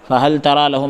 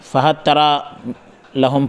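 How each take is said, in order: First: The L is pronounced clearly before the T. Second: The L merges into the following T sound. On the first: This is the common reading of the verse. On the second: This is one reciter's reading of the verse.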